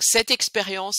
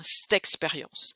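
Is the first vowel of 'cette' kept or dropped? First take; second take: kept; dropped. First: Cette is said fully, with its vowel. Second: Cette shrinks to a quick 'st' before the vowel.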